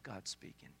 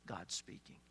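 First: Softly, with sudden hushed reverence; hushed awe. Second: An awed whisper, breathy and hushed; whispered awe. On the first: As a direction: drop right down, hushed as if listening to the storm. Preacher hushes, hearing God in thunder. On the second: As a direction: whisper it as if God might hear. Echo of previous line, whispered. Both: Acted.

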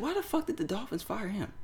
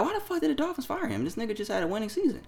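First: Quick inner thought. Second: Much higher, baffled "why the fuck"; lightly voiced outraged confusion; incredulous disbelief. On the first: Retold or imitated. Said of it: "I said it real quick in my head". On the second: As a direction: ask it in stunned disbelief, fast at the end. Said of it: "But I'm like".

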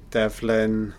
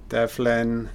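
No difference in how they are said.

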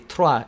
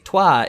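First: "trois" with a throaty French r after the t; "trois" as "trwah", r rolled at the back of the throat. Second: "toi" said like "twah" with no r; "toi" with no r sound at all. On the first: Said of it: "it's three". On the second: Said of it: "it means you". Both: Shown as a demonstration.

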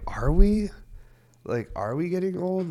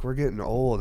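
First: High, loud disbelieving question; mock disbelief, pitched way up; incredulous. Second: Said in the usual way. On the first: Incredulous reply to wife.

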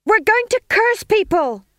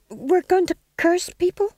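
First: Very high, loud chant; shouted chorus. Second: High, hesitant answer rising at the end; tentative venture. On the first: Witches springing to attention, chorusing loudly. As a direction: yell it out in unison. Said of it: "they chorused". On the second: Second witch to stage manager, venturing nervously. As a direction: offer it unsurely, like a question. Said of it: "he ventured". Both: A narrator's reading.

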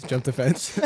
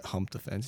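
First: Said in the usual way. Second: Hump said with an h sound instead of jump; slip of the tongue. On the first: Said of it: "hump the fence". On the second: Real, not acted. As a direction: hump spoken with a breathy h start, a tongue slip.

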